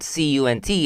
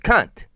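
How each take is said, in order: First: Each letter is said separately, one by one. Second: It is said as a single whole word. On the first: The speaker calls it wrong. "So it's it's not C U N T" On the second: The speaker calls it right.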